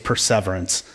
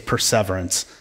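First: The word has an altered, playful pronunciation. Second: The word has an altered, playful pronunciation.

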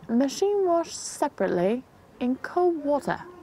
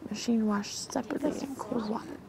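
First: It is read in a put-on foreign accent. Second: It is read in the speaker's ordinary voice.

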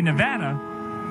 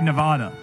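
First: It uses the local Nevada pronunciation. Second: It uses the East Coast pronunciation. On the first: The speaker calls it right. "You say Nevada" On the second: The speaker calls it wrong. "coming from the East Coast, people say Nevada. And that's wrong"

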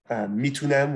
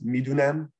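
First: The middle consonant is a t. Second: The middle consonant is a d. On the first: "which means I can" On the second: "becomes midunem"

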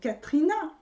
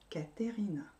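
First: The vowel after the T is dropped. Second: The vowel after the T is clearly pronounced. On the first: The speaker calls it wrong. "C'est E muet, on peut ne pas du tout le prononcer" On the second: The speaker calls it right. "il faut le prononcer comme si on avait E, accent aigu"

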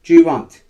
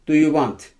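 First: The d and y blend into a j sound. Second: The d and y are said as separate sounds. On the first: "D ile Y yan yana geldiği zaman cu gibi bir şey çıkıyor" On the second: "do you want yerine"

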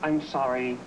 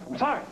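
First: It is said flatly with little feeling. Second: It is said with strong feeling, vowels stretched. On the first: The speaker calls it wrong. "It's not" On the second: The speaker calls it right. "it's I'm sorry"

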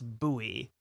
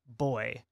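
First: The word is pronounced the American way. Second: The word is pronounced the non-American way. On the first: "the way that we pronounce buoy" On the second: "instead of boy"

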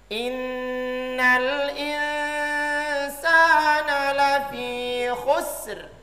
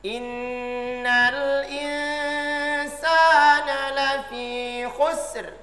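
No difference in how they are said.

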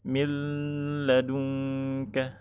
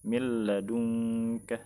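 First: The n is merged with a held nasal hum. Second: The n is merged directly without a nasal hum. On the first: The speaker calls it wrong. "kalau ada dengungnya seperti ini" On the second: The speaker calls it right.

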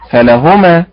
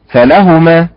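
First: The stress falls on the first syllable. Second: The stress falls on the second syllable. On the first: They themselves became the two-thirds. The speaker calls it wrong. "الأداء غير المستقيم فلهما فلهما هكذا" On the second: The two-thirds belong to them. The speaker calls it right. "الأداء المستقيم فلهما فلهما"

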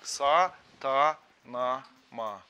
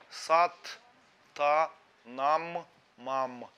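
First: Every syllable ends in an open vowel. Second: Several syllables end in a t or m sound. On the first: "Но ее можно произносить как" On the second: "Это правильная мантра"

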